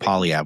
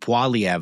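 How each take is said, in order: First: The first syllable has a plain 'o' sound. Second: The first syllable has an 'oy' sound. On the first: The speaker calls it wrong. "I was calling him Polyev, which is really this inexcusable" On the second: The speaker calls it right. "I should have been saying Poiliev the whole time"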